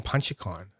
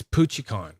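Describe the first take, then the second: First: Punchicon said as "PUN-chee-con", with an n; mistaken pronunciation. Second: Punchicon said as "POO-chee-con", with no n in the first syllable; corrected pronunciation. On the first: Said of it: "Because I wanna say Punchicon". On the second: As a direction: say "Punchicon" with a POOCH at the start. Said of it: "Why have I been saying Punchicon". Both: Real, not acted.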